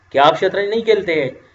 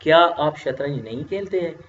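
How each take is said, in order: First: A touch louder, offhand asking; casual informal question to a younger friend. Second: Measured, respectful asking; polite formal question to a senior. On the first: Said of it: "इन दोनों फिक्रों में आपको फ़र्क नज़र आ रही है". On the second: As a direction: ask it politely, as to an elder. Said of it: "रस्मी तरीके से मैं पूछता हूँ". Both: Shown as a demonstration.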